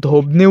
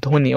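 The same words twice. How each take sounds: First: ধ্বনি with the b sounded, "dhobni"; wrong pronunciation. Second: ধ্বনি said "dhoni", no b; silent b. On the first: Teacher showing students what we don't say, b sounded in ধ্বনি. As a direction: say ধ্বনি as "dhob-ni", b audible. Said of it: "উচ্চারণ করি না". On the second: Teacher showing students what we really say, ধ্বনি with silent b. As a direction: drop the b in ধ্বনি: "dho-ni". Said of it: "আমরা উচ্চারণ করি হচ্ছে ধ্বনি". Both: Shown as a demonstration.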